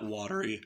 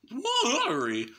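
First: Said in the usual way. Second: High, gurgling scream on watery. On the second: Shown as a demonstration. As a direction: let watery bubble up high and wet. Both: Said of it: "I like that watery".

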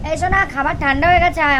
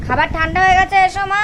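First: Calling out. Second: Higher and louder, pressing call; mother calling her daughter to eat, higher and louder; calling out again. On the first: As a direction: call her in from the next room. Calling daughter to come eat. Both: Real, not acted.

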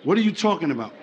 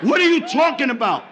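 First: Low, subdued puzzlement, acted; confused. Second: Touch of acted exasperation; mildly raised voice. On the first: Confused man to his woman, low puzzled question. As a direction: ask it low, as a baffled man. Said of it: "Men are very confused". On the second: Confused man to his woman, slightly raised voice. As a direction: push it a little, still confused. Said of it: "Are you raising your voice?".

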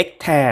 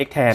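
First: X-Ter with the speaker's first reading, "ex-tae"; pronunciation of X-Ter. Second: X-Ter read as "ex-tha", the other accepted way; alternative pronunciation. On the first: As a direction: say X-Ter ending in an open "ae" vowel. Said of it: "ผมอ่านว่า X-Ter นะ". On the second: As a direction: say X-Ter ending in a long "aa" vowel. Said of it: "อ่านว่า X-Ter ก็ได้". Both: Shown as a demonstration.

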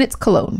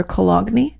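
First: Said in the usual way. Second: Cologne broken up as co-LOG-nee; joking mispronunciation. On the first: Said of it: "Co-, or Cologne?". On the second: Pretend. Teasing the letter writer, Cologne said as co-LOG-nee. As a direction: sound out the silent G in Cologne, ending in nee. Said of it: "Just kidding, Leah".

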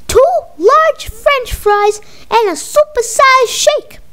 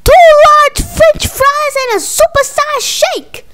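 First: Higher and slow, spelling out the order; slow repeat. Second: Higher and louder, shouting the order down the line; shouted repeat. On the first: Mama repeats order on a bad phone line, high and slow. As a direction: drag it out so the bad line catches it. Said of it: "I can't hear you good". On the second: Mama shouts her order over a bad connection, much higher and louder. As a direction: yell it so they finally hear. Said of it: "I said". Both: Acted.

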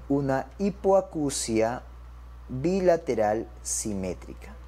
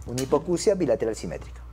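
First: Slow, spaced-out words; dictation pace. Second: Said in the usual way. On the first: Shown as a demonstration. Teacher gives doctors the diagnosis, dictation pace. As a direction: measure out each word for note-takers.

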